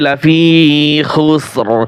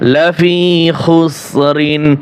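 First: The word ends on a bare r sound. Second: The word ends with an rin sound. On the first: The reciter stops at this word. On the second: The recitation continues without stopping.

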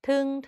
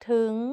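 First: The syllable is said on a level mid tone. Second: The syllable is said on a rising tone. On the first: "เสียงสามัญ" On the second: "จัตวาสุดท้ายนิ้วก้อย"

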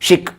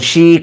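First: The vowel is said short. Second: The vowel is said long. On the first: The speaker calls it right. "शिक असं म्हणतो आपण" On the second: The speaker calls it wrong. "शीक नाही म्हणत"

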